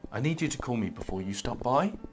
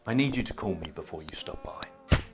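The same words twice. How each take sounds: First: The voice rises at the end. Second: The voice falls at the end. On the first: It sounds like a question. The speaker calls it wrong. "if you end high, it's going to come across as a question" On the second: It sounds like a statement. The speaker calls it right. "Comes across as a statement and it commands a bit more respect"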